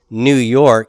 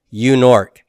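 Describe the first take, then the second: First: It begins with an n sound, normal order. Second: It begins with a y sound, sounds swapped. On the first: The speaker calls it right. "his son could never say New York" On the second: The speaker calls it wrong. "He always said U-Nork"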